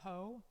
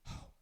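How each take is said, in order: First: It is said with a plain, fully voiced tone. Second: It is said as an airy, breathy exhale. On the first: The speaker calls it wrong. "rather than ho" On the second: The speaker calls it right. "aspirate the sound of the word ho"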